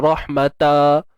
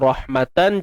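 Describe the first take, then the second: First: The word ends with a final open -a sound. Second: The word ends with a final -an sound. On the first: This is not the form when stopping on the word. "dia tak jadi rahmata" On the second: This is the full form when reading on. "contoh rahmatan"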